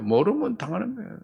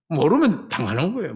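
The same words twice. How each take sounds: First: 모르면 당하는 거예요 said softly with a rising tune; hushed repeat ending in a rise; quiet. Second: Said in the usual way. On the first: Shown as a demonstration. Preacher softly repeating 모르면 당하는 거예요 to the congregation, quiet rising tune.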